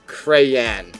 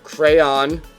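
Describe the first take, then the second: First: The second syllable rhymes with man. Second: The second syllable rhymes with dawn. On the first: "others with man" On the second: "rhyming it with dawn"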